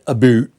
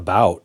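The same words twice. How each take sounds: First: The vowel sounds like 'boot'. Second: The vowel sounds like 'ow'. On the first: It mocks how people far north talk. "the hosers way up north might pronounce it about" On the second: It is how the speaker really talks. "I think I say about"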